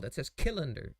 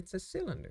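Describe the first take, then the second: First: The word begins with a hard K sound. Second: The word begins with a soft S sound. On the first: The speaker calls it wrong. "someone who doesn't know the language could be like" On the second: The speaker calls it right.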